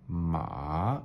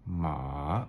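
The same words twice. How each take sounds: No difference in how they are said.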